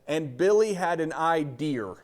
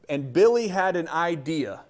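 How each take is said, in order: First: The word idea ends with an added R sound. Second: The word idea ends without an R sound. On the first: "up there they pronounce things with an R" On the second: "the teacher did not sound like that"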